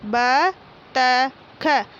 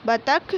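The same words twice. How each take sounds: First: बतख drawn out very slowly as ब-त-ख; slow syllable reading. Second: Said in the usual way. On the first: Shown as a demonstration. Teacher reading बतख aloud for pupils, very slowly. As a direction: sound out बतख one syllable at a time. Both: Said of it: "मौखिक बोलकर पढ़िए".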